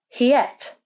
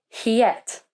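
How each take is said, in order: The two takes are said the same way.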